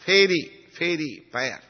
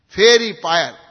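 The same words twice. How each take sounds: First: "fairy, fairy pyre" slowly, word by word; "fairy, fairy pyre" said haltingly; searching pronunciation. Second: "Fairy pyre" loud and higher, firmly landed; "Fairy pyre" pronounced emphatically; corrected pronunciation. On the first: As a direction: feel your way through "fairy, fairy pyre". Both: Real, not acted. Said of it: "Pyre is proper".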